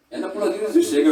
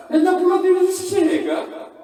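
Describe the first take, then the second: First: Said in the usual way. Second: Laughing shout. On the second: Shown as a demonstration. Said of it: "repeated line, louder, laughing".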